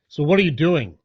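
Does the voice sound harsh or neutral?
harsh. It is said in a rough, tough tone. The question sounds confrontational. "Let me try to go back to my old tone"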